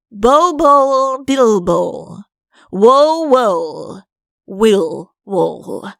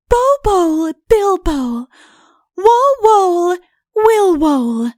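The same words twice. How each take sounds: First: A touch of grand recitation in Udo's voice; declaimed. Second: High chanted charm; sung, reciting a spell. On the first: Udo declaiming the spell with his paw, grandly. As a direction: declaim the spell, arm sweeping. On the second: Princess teaching Udo the magic couplet, chanted. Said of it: "It goes like this". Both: Acted.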